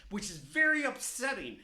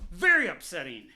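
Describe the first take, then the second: First: Said in the usual way. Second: "Very" stressed, lower and louder; emphatic repeat. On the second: Real, not acted. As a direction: lean hard on "Very".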